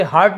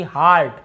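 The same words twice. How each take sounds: First: हर्ट with a short "uh" vowel; short-vowel counter-example हर्ट; mistaken reading. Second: हार्ट with a long open "aa"; long vowel. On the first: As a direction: say हर्ट as "hurt". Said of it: "इसे हर्ट नहीं पढ़ रहे हम". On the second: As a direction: say हार्ट as "haart". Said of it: "ईए का उच्चारण आ होता है". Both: Shown as a demonstration.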